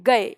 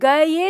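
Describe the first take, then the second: First: The final vowel follows directly without a 'y' sound. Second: A distinct 'y' sound comes before the final vowel. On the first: The speaker calls it right. "हम बोलते हैं गए" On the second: The speaker calls it wrong. "पहले आपको य का उच्चारण करना पड़ेगा और फिर उसके बाद ए का"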